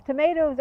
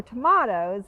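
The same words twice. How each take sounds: First: Said in the usual way. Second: "tomatoes" said as tuh-MAH-toes; alternative pronunciation. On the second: Shown as a demonstration. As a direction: say "tomatoes" with an AH in the middle. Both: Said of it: "tomatoes or tomatoes".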